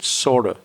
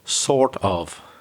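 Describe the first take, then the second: First: The words blur into one reduced word. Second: Both words are said fully and separately. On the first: "That's the weak pronunciation" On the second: "I shouldn't really say it that way"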